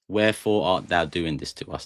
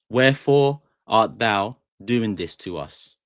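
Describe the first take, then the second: First: Said in the usual way. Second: Slow, stretched "Wherefore art thou" reading; slow dramatic demo. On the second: Shown as a demonstration. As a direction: linger on each word like a stage actor. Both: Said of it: "In a sentence".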